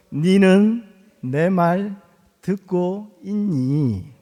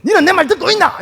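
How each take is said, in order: First: Put-on calm father asking the child in standard Korean; gentle standard version. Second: Much higher, louder Gyeongsang dialect scolding; angry father blowing up at his child in dialect; exploding in Gyeongsang dialect. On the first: Shown as a demonstration. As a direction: say it slowly and calmly in standard Korean. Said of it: "성질이 나니까". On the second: Retold or imitated. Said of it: "탁 터지가지고".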